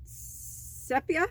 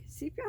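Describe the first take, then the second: First: "Sepia" said SEP-ya, with a short e; unsure pronunciation. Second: "Sepia" said SEEP-ya, with a long ee; alternative pronunciation. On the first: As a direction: try "Sepia" as SEP-ya, higher, questioning. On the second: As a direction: softly test "Sepia" as SEEP-ya. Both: Real, not acted. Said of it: "I don't know how you say it".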